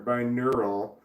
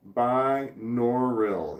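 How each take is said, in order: First: "binaural" with middle like "nur"; unsure pronunciation. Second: "binaural" slowly as bye-NOR-ril; corrected pronunciation. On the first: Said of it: "I don't know how to pronounce this". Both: Shown as a demonstration.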